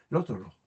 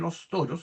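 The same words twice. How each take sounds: First: The s sounds are weakened or dropped. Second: Every s sound is clearly pronounced. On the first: "sino que los toros" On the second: "No pronunciamos esperadamente los toros"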